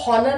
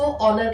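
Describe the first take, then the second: First: The word begins with an h sound. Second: The word begins with a vowel sound. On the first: The speaker calls it wrong. "हम इसको हॉनर नहीं कहते हैं" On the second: The speaker calls it right. "हम इसको ऑनर कहते हैं"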